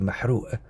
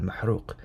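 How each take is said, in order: First: The word ends with a glottal stop instead. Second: The word ends with a deep 'q' consonant. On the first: It is the Egyptian dialect pronunciation. "the Egyptian dialect, which would be mahru', right, without the qaf" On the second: It is the standard classical pronunciation. "I was pronouncing the word correctly"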